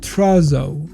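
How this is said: The word is said with an English pronunciation. The speaker calls it wrong. "In English, it's pronounced trazo"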